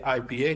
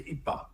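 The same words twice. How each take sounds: First: The letters are spoken with English letter names. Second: The letters are spoken with French or Dutch letter names. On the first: "they don't say I P A" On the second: "they say I P A"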